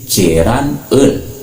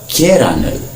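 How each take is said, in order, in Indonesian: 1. Kedua bagian diucapkan terpisah dan pelan. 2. Kedua bagian diucapkan menyambung dengan cepat.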